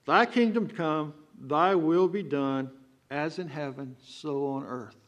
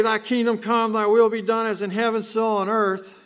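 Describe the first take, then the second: First: Thy kingdom come, slowly, word by word, with will stretched long; slow, deliberate prayer. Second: Thy kingdom come rattled off higher and louder, by memory; mock the rushed habit of praying from memory; rattled-off rote prayer. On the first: Preacher showing the congregation how to pray it: slow and deliberate. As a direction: weigh every phrase of the prayer, slow. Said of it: "And so when we pray this". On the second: Preacher mimicking how people pray it fast: loud rote rattle. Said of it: "and people pray it fast". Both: Shown as a demonstration.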